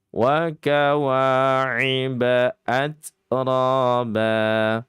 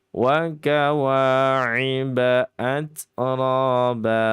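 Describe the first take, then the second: The two takes are said the same way.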